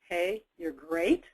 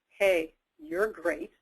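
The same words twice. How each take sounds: First: The tone sounds uncertain and hesitant. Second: The tone sounds sarcastic and mocking. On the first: The speaker doubts the praise. "Now uncertain or unsure" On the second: The praise is not meant. "Here's sarcastic"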